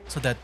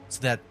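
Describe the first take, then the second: No difference in how they are said.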